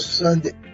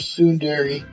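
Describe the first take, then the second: First: The word is shortened to sound like English 'Sunday'. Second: The word is said with its full Japanese sounds. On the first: "I say Sunday because I don't want to sound like a Liam" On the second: "probably would say it in its actual way"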